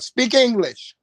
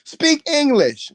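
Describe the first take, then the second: First: Mock Lord's command. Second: Much higher, louder and slower; emphatic repeat. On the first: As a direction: snap it as an irritated Lord. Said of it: "The Lord be like". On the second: Retold or imitated. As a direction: draw it out as a big shouted command.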